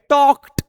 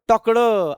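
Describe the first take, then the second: First: The ending is a t sound. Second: The ending is a d sound. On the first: The speaker calls it right. "ट येतं" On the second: The speaker calls it wrong. "ड नका करू"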